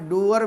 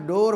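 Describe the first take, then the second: First: It has a long oo gliding into er. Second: It has a plain o vowel before r. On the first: The speaker calls it wrong. "डूअर भी नहीं होगा" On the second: The speaker calls it right. "डोर हो"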